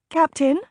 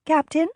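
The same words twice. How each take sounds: First: Higher, worried call into the dark; calling out for someone unseen; anxious call. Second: Anxious call. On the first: Lady alone on the horse calling for the captain, afraid. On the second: Blind lady calling, afraid. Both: A narrator's reading.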